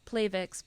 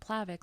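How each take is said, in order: First: The first syllable sounds like 'plate'. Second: The first syllable does not sound like 'plate'. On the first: The name points to the platelets. "originally supposed to be announced Plavix because it works on the platelets" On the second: This is the easier, common way to say it. "everyone kept calling it Plavix"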